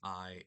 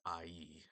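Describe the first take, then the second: First: The vowels glide together as one syllable. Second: The vowels are split into two syllables. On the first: The speaker calls it wrong. "It's not I" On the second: The speaker calls it right. "it's two separate syllables"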